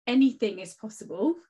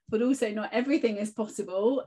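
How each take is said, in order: First: "anything" lifted and punched, rest falls away; stress on ANYTHING. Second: "everything" lifted and punched against "not"; stress on EVERYTHING. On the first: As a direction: lean hard on "anything", rising. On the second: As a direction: lean hard on "everything", rising. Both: Real, not acted. Contrasting anything with not everything.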